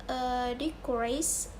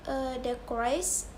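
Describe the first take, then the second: No difference in how they are said.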